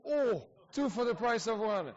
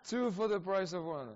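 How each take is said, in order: First: Higher and louder, delighted; excited exclamation. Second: A bit higher and louder, still excited; amused repeat. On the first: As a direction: cry it out happily at the double question. Two guests asked at once. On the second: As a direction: echo the joke with a grin. Repeating the joke. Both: Real, not acted.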